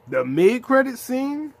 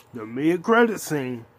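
First: Much higher and louder, slow and stretched; overwhelmed fan shouting the scene's name; hyped. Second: Said in the usual way. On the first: Real, not acted. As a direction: yell it in disbelief. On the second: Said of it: "repeated louder next".

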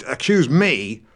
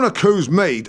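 First: "accuse" as "a-kyooze", with the y; standard pronunciation. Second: "accuse" as "a-cooze", no y; yod-dropped pronunciation. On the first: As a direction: correct "accuse" to a clear y sound. Corrects his own slip. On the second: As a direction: slip into "accuse" without the y. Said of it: "drop the y sound after certain consonants". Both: Acted.

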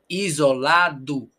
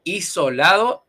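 First: "Isolado" slow, as izo-LA-du; Portuguese version. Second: "Isolado" with S and final O, louder, rising; Spanish version. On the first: Teacher modelling Portuguese "Isolado", final O as U. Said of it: "pero nosotros decimos U". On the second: Teacher setting up Spanish "Isolado" for contrast, rising. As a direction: say "Isolado" as iso-LA-do, lifting the end. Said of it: "Me perdí la palabra". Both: Shown as a demonstration.

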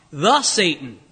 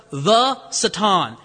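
First: Said in the usual way. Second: The Satan, with the said slow and stressed and the vowel of Satan like "suh-TAHN". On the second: Shown as a demonstration. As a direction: lean on the. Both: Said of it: "a definite article".

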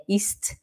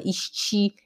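First: "ist" in one syllable; correct pronunciation. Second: "ist" said as "ishti", two syllables; wrong pronunciation. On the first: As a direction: end "ist" on a crisp t, no added vowel. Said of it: "é ist". (pronúncia correta, sem i no fim) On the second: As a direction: add a Brazilian i after the t of "ist". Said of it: "não é ist". (pronúncia errada: "isti") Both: Shown as a demonstration.

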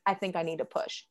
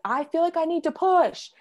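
First: Said in the usual way. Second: Much higher, imitated urgent call; urgent cry. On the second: Labouring mother telling nurses she must push, urgent cry. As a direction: call it out, rising as the urge hits.

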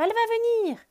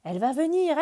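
First: Higher repeat. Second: Bird voice. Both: Acted. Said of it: "dit Oiseau".

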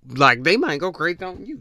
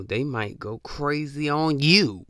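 First: Higher and louder, leaning on "might"; emphatic repeat. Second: Said in the usual way. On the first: Real, not acted. Warning listeners that a drinker might snap, emphatic. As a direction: push "might" up hard the second time.

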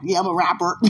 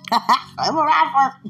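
First: Said in the usual way. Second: High, loud, slow mock declaration; drawn-out, self-mocking "rapper"; comic repeat. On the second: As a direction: stretch RAPPER out high, on the edge of laughter. Comic repeat of her answer.

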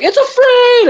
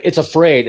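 First: Much higher, jubilant repeat of the line; the crowd screams it back in triumph; excited crowd echo. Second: Said in the usual way. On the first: Retold or imitated. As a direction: troops cheering the captured bug. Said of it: "they're like". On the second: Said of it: "he's like".

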